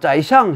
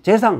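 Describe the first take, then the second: First: It is said with Chinese pronunciation, zaixiang. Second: It is said with Korean pronunciation, jaesang. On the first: Listeners in China would understand it. The speaker calls it right. "재상은 짜이샹 해야지" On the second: Listeners in China would not understand it. The speaker calls it wrong. "재상 하면 못 알아듣는다"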